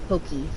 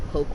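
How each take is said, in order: First: The word is said in a Hawaiian-style way. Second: The word is said in an anglicized way. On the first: The speaker calls it right. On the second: The speaker calls it wrong.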